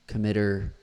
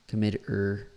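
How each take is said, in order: Both takes have the same delivery.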